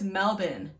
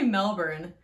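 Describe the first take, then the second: First: The R sound in the middle is dropped. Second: The R sound in the middle is pronounced. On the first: The speaker calls it right. "the Australian people just don't say the R" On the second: The speaker calls it wrong. "I used to say Melbourne"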